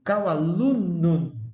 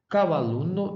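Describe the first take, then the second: First: The word ends in an UM sound. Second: The word ends in an O sound. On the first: "deveria ser exatamente" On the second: "casos de O por U"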